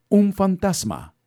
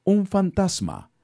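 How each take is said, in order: First: Louder, high, slow terrified shout; grito de miedo. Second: High, slow scared shout; grito de miedo. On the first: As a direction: scream it again, even more frightened. (grito aterrado más fuerte, agudo y lento) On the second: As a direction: cry out in terror at a ghost. (grito aterrado, agudo y lento) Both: A narrator's reading. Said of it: "Llenos de miedo, gritaron".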